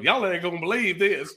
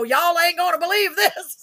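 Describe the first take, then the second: First: Put-on Texan accent on "Y'all ain't gonna believe this"; Texas storyteller. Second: Put-on Waco Texan accent. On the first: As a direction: open a tall tale the Texas way. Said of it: "A Texas fairy tale". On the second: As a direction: let the Waco Texas accent slip out. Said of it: "my Waco slipped out".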